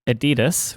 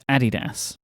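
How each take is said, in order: First: The name is pronounced the American way. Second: The name is pronounced the British way. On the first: "which is the American way" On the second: "or the U K one"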